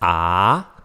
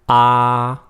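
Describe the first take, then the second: First: The pitch rises from middle to high. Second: The pitch stays high and level. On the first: "rising tone" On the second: "The first one is a high flat tone"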